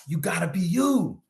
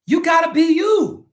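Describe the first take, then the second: First: Said in the usual way. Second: High shout. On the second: Real, not acted. Shouted at Steelers fans.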